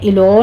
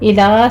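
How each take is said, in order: First: The l is heavy, with an o-like vowel. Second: The l is light, with an open a vowel. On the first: The speaker calls it wrong. "यहाँ पे आपने इलो नहीं कहना" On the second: The speaker calls it right. "लाम को बारीक रखना है"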